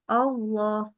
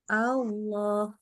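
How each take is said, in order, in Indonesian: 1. Vokal pertama bunyinya seperti O yang membulat. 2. Vokal pertama bunyinya seperti A yang terbuka. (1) "bacanya jadi gini, Allah, Allah. Itu nggak boleh" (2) "Jadi buka mulut dulu, A dulu"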